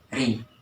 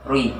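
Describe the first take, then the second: First: The syllable is thin with spread lips. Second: The syllable is rounded with gathered lips. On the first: The speaker calls it right. "melapangkan ri" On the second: The speaker calls it wrong. "Tidak boleh mengumpulkan bibir. Tidak boleh rui"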